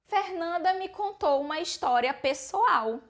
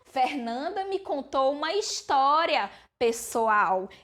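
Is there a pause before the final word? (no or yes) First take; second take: no; yes. First: It runs straight through without a pause. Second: There is a pause before the last word. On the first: Someone told a private story of her own. "se não fosse o uso da vírgula" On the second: A group of people is being addressed. "Eu estou exclamando"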